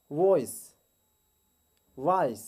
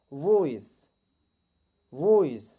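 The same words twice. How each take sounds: First: वॉइस starting with w; wrong take, वॉइस as woice. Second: वॉइस with a firm v; right voice. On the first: Teacher demonstrates the wrong वॉइस. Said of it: "wrong pronunciation". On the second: Teacher models वॉइस with a v. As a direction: correct वॉइस, clear v. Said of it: "जबकि right pronunciation". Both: Shown as a demonstration.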